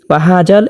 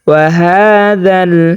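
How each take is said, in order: First: The consonant is made hard, like a j. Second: The consonant is made with tongue tip on teeth. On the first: The speaker calls it wrong. "জালটাকে শক্ত করে পড়ে থাকেন" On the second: The speaker calls it right. "জিহ্বার আগা উপরের দুই দাঁতের আগার সাথে লাগিয়ে"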